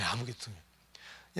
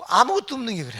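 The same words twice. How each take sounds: First: Softer and lower, letting 아무것도 없는 drop; soft echo. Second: Loud and higher, hammering 아무것도; emphatic outburst. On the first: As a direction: murmur 아무것도 없는 as an afterthought. Quiet echo of the rebuke. (아무것도 없는을 낮고 조용하게) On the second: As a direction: cry out 아무것도 없는 like a rebuke. Preacher stressing nothing to boast. (아무것도를 높고 크게 외치듯) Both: Acted.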